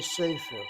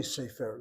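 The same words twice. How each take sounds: First: Sefer said SE-fer, first syllable hit; first-syllable stress. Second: Sefer said se-FER, last syllable hit; final stress. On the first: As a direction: lean on the start of sefer, SE-fer. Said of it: "They hit that first syllable". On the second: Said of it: "people don't say sefer". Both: Shown as a demonstration.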